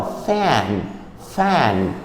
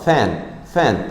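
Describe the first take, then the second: First: Fan with the throat slightly tightened; tight-throated f. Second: Said in the usual way. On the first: Shown as a demonstration. Teacher demonstrating fluent fan to students. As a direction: squeeze the throat a little on fan. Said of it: "dá uma contraída na garganta". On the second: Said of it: "Tô falando normal".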